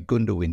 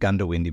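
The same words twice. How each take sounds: First: The first syllable sounds like 'goon'. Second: The first syllable sounds like 'gun'. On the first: "half the people say Gundawindi because it's spelt G-O-O-N" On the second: "you're supposed to pronounce it Gundawindi"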